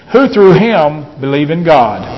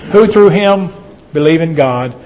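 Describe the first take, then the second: No difference in how they are said.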